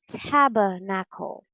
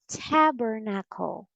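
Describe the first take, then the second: First: It is said in a British accent. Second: It is said in an American accent. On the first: "and in British English, it's tabernacle" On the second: "So in American English, it's tabernacle"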